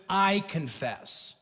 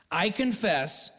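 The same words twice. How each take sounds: First: Drawn-out, deliberate I confess; slow solemn confession. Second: Firmer, quicker I confess; steady confession. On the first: Preacher shows America how to confess, slow and solemn. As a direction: say it slowly, owning it. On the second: Preacher repeats the confession, steadier and plainer. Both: Shown as a demonstration. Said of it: "need to start with".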